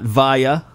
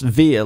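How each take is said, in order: First: The name does not rhyme with 'Mia'. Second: The name rhymes with 'Mia'. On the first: The speaker calls it wrong. "It's not Via" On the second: The speaker calls it right. "It's Via, like Mia, like Mamma Mia"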